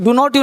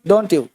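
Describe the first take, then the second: First: It is said as three separate full words. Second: It is said with the contracted form don't. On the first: The speaker calls it wrong. "डू नॉट यू किया तो number कटेगा" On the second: The speaker calls it right. "अगर डोंट यू किया तो सही किया"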